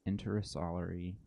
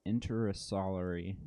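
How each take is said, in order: Both takes have the same delivery.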